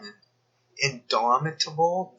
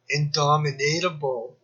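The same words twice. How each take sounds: First: "indomitable" drawn out slowly as a question, stress on "dom"; puzzled reading of a word. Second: "indomitable" said as "in-DOM-in-ate-able", with an extra "ate" syllable; proposed alternate pronunciation. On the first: Puzzling over the word "indomitable" aloud, slow questioning rise. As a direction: sound out "indomitable" slowly, rising, unsure of it. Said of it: "Does that mean you can't dominate?". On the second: Suggesting the word "indomitable" should sound like "dominate". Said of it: "then why isn't it". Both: Shown as a demonstration.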